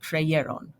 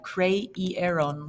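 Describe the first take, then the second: First: "creyeron" as cre-YE-ron, with Y between vowels; I becomes Y. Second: "creyeron" slowly split as cre-i-e-ron; regular wrong form. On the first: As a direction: say "creyeron" in three syllables, with a Y glide. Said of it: "I between two vowels becomes shy". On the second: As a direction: say "creyeron" with a full I vowel, no Y. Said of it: "you would have creyeron like that". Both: Shown as a demonstration.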